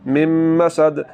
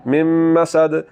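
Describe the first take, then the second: First: The n merges fully into the m. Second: The same.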